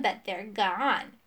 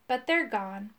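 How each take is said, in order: First: Slow, drawn-out mock sorrow; mocking imitation. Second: Understated sorrowful admission; sad. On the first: Rival mimics the magician's lost tears, mockingly. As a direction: stretch it scornfully as a parody. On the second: Magician admits the tears are gone, sadly. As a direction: let it sink with mild regret. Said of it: "he said sadly". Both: A narrator's reading.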